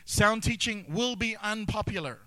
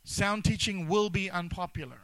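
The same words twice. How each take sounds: First: Emphatic declaration. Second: Emphatic repeat. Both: Real, not acted.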